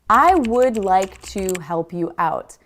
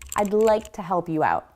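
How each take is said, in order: First: Would and to are said in full. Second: Would is contracted and to is almost silent.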